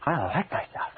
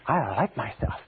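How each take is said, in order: First: It is said with strong emotion. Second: The same.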